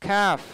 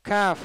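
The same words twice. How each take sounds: The two takes are said the same way.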